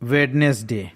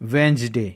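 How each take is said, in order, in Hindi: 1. इस शब्द में d की ध्वनि बोली जाती है। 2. इस शब्द में d की ध्वनि साइलेंट रहती है। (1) "बट ये इनकरेक्ट प्रोनाउंसिएशन है।" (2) "क्योंकि डी यहाँ पास साइलेंट है"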